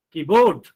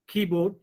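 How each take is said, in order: First: "keyboard" with "board" punched loud, key-BOARD; mis-stress "keyboard" on its second syllable; wrong final stress. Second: "keyboard" as KEY-board, first syllable stressed. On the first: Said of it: "No, not like that". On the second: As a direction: model "keyboard" correctly with a light "board". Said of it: "you are giving stress on first syllable". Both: Shown as a demonstration.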